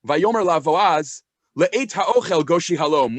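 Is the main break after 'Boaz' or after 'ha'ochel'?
after Boaz. The break comes after the word Boaz. The invitation is to come when it is time to eat. "Or it could be read"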